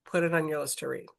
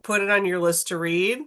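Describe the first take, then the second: First: Softer, quicker repeat of the urging; quiet fast aside. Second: Said in the usual way. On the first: Shown as a demonstration. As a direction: drop the volume and rush the repeat.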